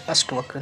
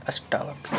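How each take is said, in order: First: अष्टवक्र with short ta; no long aa after sht in अष्टवक्र; wrong form. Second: अष्टावक्र with long taa; corrected form. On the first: Teacher shows the error, अष्टवक्र with short ta. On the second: Teacher corrects students, अष्टावक्र with long taa. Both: Shown as a demonstration. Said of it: "नहीं".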